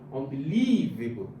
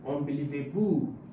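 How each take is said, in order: First: The stress is on the third syllable. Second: The stress is on the fifth syllable. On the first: "If I put it on the third one" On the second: "If I put it on the fifth one"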